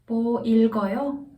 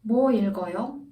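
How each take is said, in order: First: The stress falls on the verb. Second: The stress falls on the question word. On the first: Asks whether the person is reading anything. "읽어요 is stressed" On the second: Asks what exactly the person is reading. "뭐 stressed, 읽어요 not as much"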